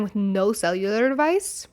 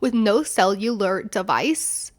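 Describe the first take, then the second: First: "cellular" said slightly oddly in passing; "cellular" run into the phrase, a bit off. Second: "cellular" slowly sounded out; slow, careful retake on "cellular". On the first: Real, not acted. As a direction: stumble lightly over the word "cellular" at normal pace. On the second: Shown as a demonstration. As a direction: say "cellular" deliberately, syllable by syllable. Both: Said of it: "I think I just said cellular extremely oddly".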